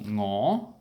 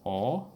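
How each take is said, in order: First: The word begins with an 'ng' sound. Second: The word begins directly with the vowel. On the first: This is the older pronunciation. "dropped the ngo" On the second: This is the newer pronunciation. "just gone to o"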